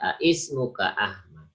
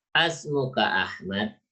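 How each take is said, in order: First: Two separate vowels are heard at the start. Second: One merged vowel is heard at the start. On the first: The speaker calls it wrong. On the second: The speaker calls it right.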